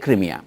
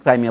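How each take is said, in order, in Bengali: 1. প্রথম সিলেবলে 'ee' স্বরধ্বনি আছে। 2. প্রথম সিলেবলে 'eye' স্বরধ্বনি আছে। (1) "আমরা সবসময় ক্রিমিয়াই বলি কারণ রুশ উচ্চারণ সেইটাই" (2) "আমেরিকানরা ক্রাইমিয়া বলে"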